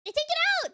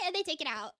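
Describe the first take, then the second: First: High, louder indignant cry; indignant outburst. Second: Said in the usual way. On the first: Real, not acted. Fan fuming about a cut scene, high indignant cry. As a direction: burst out in mock outrage. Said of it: "It makes me so mad".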